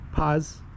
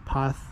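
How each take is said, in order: First: The word ends with an s sound. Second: The word ends with a th sound.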